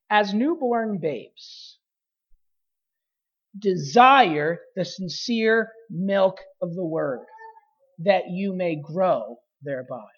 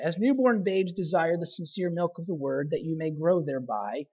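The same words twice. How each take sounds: First: There is a pause after "babes". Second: There is no pause after "babes".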